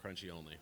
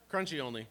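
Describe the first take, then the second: First: Said in the usual way. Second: Higher and louder, Crunchy only declared; emphatic insistence. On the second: Shown as a demonstration. Speaker declaring peanut butter preference, loud emphatic. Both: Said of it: "repeated louder".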